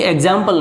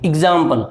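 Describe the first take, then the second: First: "एग्जाम्पल" opening on an "e" sound, "eg-zampal"; wrong pronunciation. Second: "एग्जाम्पल" opening on a short "i", "ig-zampal"; correct short-i pronunciation. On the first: English teacher showing learners what not to say, "एग्जाम्पल" as "eg-zampal". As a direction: say "एग्जाम्पल" with an open "eg" at the start. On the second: English teacher correcting learners on the letter E, "एग्जाम्पल" as "ig-zampal". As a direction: start "एग्जाम्पल" with "ig", not "eg". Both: Shown as a demonstration. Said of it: "ये एग्जाम्पल नहीं है".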